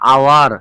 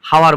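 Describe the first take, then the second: First: The word begins with a vowel sound. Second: The word begins with an h sound. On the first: The speaker calls it right. "এইচ এর উচ্চারণটা হচ্ছে না" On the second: The speaker calls it wrong. "আমরা কিন্তু হাওয়ার বলবো না"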